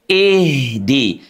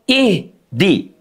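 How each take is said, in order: First: The h flows straight into the next syllable. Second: The word is cut off after the h. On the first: The speaker calls it right. "Dia mengalir ya" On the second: The speaker calls it wrong. "dijeda, tidak diputus"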